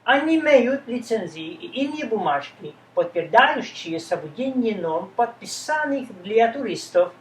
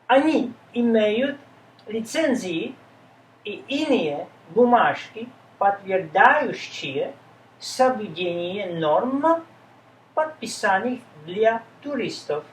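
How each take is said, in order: First: The sentence is read at full speed. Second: The sentence is read at a slow pace.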